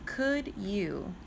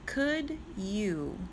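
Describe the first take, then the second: No difference in how they are said.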